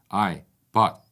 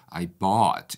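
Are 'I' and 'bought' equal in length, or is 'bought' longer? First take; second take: equal; bought longer. First: Both words are said with about equal length. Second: Bought is stretched much longer than I. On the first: The speaker calls it wrong. "거의 동일한 길이로 발음한 거고요" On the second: The speaker calls it right. "bought에다가 훨씬 더 길게 호흡을 준 거"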